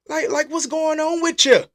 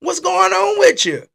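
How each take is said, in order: First: "what's going on with you" asked higher and louder, even stress; indignant question, no special weight on "with"; mock challenge. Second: "what's going on WITH you" slow, high and loud, leaning on "with"; stress on WITH. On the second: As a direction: press hard on "with" to probe the person. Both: Shown as a demonstration. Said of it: "Not with you, with you".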